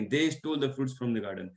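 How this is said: The word they carries the main stress. They stole it, not us. "हो सकता है कि हमने नहीं, उन्होंने"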